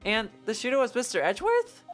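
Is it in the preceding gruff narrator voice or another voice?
another voice. It is in a different character's voice.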